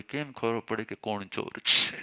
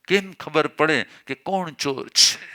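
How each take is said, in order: First: Said in the usual way. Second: Drawn out, each word weighed: કેમ ખબર પડે કે કોણ ચોર છે; slow, deliberate question. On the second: Shown as a demonstration. Preacher showing the congregation a tactful answer to police, slow and deliberate. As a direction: ask it slowly, like a careful innocent question. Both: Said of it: "ચોર ગયો, અહીંયાથી ઘણા જતા હોય".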